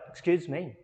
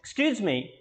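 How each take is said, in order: First: It sounds quick and apologetic. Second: It sounds polite and attention-seeking. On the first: The speaker is apologizing. "Here it means I am sorry" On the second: The speaker wants to talk to someone. "it means I want to talk to that person"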